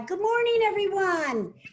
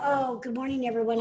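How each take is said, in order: First: It is said with strong, powerful energy. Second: It is said in a low-key, flat way.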